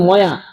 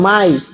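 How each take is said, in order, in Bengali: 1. এতে y ধ্বনিসহ দুটি অক্ষর আছে, moya। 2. এটি y ধ্বনি দিয়ে শেষ হয়, mai। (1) "সৌদি আরব গিয়ে বলেন ময়া" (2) "অন্য জায়গায় বলেন মাই"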